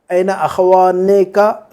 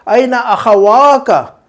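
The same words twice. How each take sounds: First: Drawn-out "अखवाने का", the "ने" left in before "का"; wrong form demo. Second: Slow "अखवा का" with a long "वा" and no "ने"; correct form demo. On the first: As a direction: slowly sound the extra "ने" in "अखवाने का". (गलत रूप: "अखवाने का" में "ने" साफ़, धीरे बोलकर) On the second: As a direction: stretch the "वा" in "अखवा का", going straight into "का". (सही रूप: "अखवा का" में "वा" खींचकर, बिना "ने") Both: Shown as a demonstration. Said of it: "गलत".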